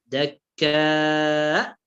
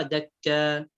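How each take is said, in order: First: Long drawn aa closed by hamza in دكاء; hamza sounded in دكاء. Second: دكا ending without a glottal stop; hamza dropped in دكا. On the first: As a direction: hold دكاء, then stop it in the throat. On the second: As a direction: leave the final vowel of دكا open. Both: Shown as a demonstration. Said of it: "بدون همزة".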